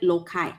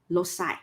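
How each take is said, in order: First: The middle consonant is a hard k sound. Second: The middle consonant is not a k sound. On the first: "In British English, we call it loci. We pronounce it like a K" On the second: "In American English, you pronounce it as loci"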